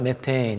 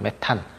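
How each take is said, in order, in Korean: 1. 영어식으로 발음해요, 'me-te-in'. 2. 한국식으로 발음해요, 'me-tan'. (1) "영어식 발음으로 하면 메테인" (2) "기존에 해왔던 대로 한다고 표현하면 메탄이죠"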